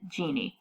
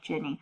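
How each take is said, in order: First: The first vowel is a long 'ee' sound. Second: The first vowel is a short 'i' sound. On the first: The speaker calls it wrong. "we tend to pronounce it Genie" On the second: The speaker calls it right. "but it's actually like Ginny"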